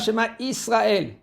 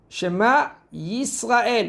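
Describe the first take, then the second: First: The second word begins with a plain vowel. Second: The second word begins with a y sound. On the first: The speaker calls it wrong. "et pas Shema Israël" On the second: The speaker calls it right. "Shema Yisrael et pas"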